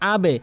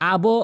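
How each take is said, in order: First: The b is released with an e-like vowel. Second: The b is released with an o-like vowel. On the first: The speaker calls it right. "বলতে হবে আবে। নিচের দিকে সাউন্ডটি করতে হবে।" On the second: The speaker calls it wrong. "আবো বলা যাবে না"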